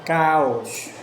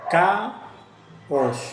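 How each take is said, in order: First: "Caos" loud and drawn out, without a break; slow pronunciation. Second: "Caos" broken as CA... OS with a long gap; split into syllables. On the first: Teacher demonstrates hiato for students, slow connected word. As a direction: say "Caos" slowly in one connected go. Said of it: "Pronuncia palabras lentamente". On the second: Teacher divides the word for students, syllable by syllable. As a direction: pause between "Ca" and "os". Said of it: "Divide la palabra en sílabas". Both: Shown as a demonstration.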